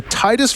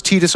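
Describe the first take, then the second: First: Tidus with "tie" as first syllable; TIE-dus pronunciation. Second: Tidus with a long "ee" first; TEE-dus pronunciation. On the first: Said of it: "the first sounds cooler". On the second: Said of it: "second option is technically correct". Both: Shown as a demonstration.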